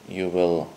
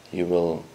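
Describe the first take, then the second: No difference in how they are said.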